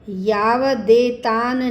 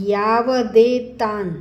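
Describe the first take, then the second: Both takes have the same delivery.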